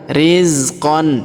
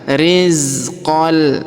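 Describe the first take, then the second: First: The word ends with an n sound. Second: The word ends with an l sound. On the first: The speaker calls it wrong. "bukan rizqan" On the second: The speaker calls it right. "Jadi dibaca rizqal"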